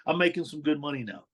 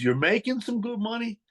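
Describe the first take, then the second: First: Said in the usual way. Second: Pitched way up in disbelief; a skeptical boss repeating the boast; incredulous echo. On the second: Retold or imitated. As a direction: throw his words back at him, stunned.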